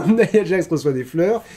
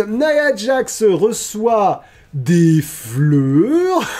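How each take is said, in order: First: Said in the usual way. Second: Drawn-out, high-pitched proclamation; mock-grand announcement. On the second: Host announces that Nia Jax receives flowers, mock-grand. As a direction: stretch it out high like a big reveal.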